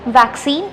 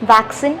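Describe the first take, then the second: First: The last syllable has a long 'ee' vowel. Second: The last syllable has a short 'i' vowel. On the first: The speaker calls it right. "Correct pronunciation വരുന്നത് വാക്സീൻ" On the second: The speaker calls it wrong. "വാക്സിൻ വാക്സിനേഷൻ എന്ന് പറയുന്നു"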